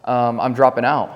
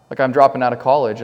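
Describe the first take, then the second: First: Said in the usual way. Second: Firm announcement to grandma; firmer repeat. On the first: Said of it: "And I was like, "Hey, Grandma". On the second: Retold or imitated. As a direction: insist on it this time. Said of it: "repeated more firmly".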